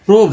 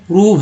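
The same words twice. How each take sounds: First: प्रोब with a long "oh"; the mistaken reading प्रोब, vowel as in robe; wrong O vowel. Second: प्रूव with a long "oo"; the right reading प्रूव, vowel as in groove; correct OO vowel. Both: Shown as a demonstration. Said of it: "लेकिन ऐसा नहीं है".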